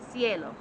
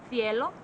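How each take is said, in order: First: Cielo with a plain s at the start, as in Mexico; Mexican Spanish pronunciation. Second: Cielo with a lisped th at the start, as in Spain; Spanish accent from Spain. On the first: Teacher showing how Mexico says sky, cielo with an s. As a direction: start cielo with s, like see, falling at the end. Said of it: "The other's gonna sound like this". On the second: Teacher showing how Spain says sky, cielo with a th. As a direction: start cielo with th, like thin, rising at the end. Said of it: "One is gonna sound like this". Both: Shown as a demonstration.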